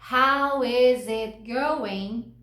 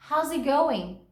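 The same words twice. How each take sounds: First: How is it going? with every word spelled out slowly; slow, separate How is it going?. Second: How's it going? run together as one big word; smooth, linked How's it going?; connected speech. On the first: Teacher showing the unlinked How is it going? word by word. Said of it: "que eu não preciso falar palavra por palavra". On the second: Teacher showing students How's it going? blended as one word. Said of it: "juntar e fazer uma big word". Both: Shown as a demonstration.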